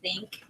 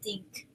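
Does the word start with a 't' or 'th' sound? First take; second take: th; t. First: The word begins with a 'th' sound. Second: The word begins with a plain 't' sound. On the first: "instead of saying think" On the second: "they think the H is mute"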